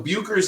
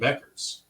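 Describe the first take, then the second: First: The first vowel sounds like the vowel in 'book'. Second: The first vowel sounds like the vowel in 'beck'. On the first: "Buchers is the correct pronunciation" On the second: "I'm hearing Beckers"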